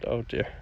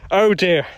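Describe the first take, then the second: First: Low, hushed and creepy; quiet oh dear. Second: Louder, sharper exclamation; loud oh dear. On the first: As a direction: drop it low and soft. Mock creepy reaction to comment. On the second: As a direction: blurt it out. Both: Pretend.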